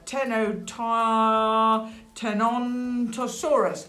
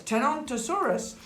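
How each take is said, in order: First: Slow, higher sounding-out of "Tenontosaurus". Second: "Tenontosaurus" said higher, at normal pace; triumphant repeat. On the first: Storyteller working out the dinosaur's name, "Tenontosaurus" slowly sounded out. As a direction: stretch "Tenontosaurus" out carefully. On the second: Storyteller repeating the dinosaur's name, "Tenontosaurus" high and unhesitating. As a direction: say "Tenontosaurus" in one confident go. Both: Shown as a demonstration.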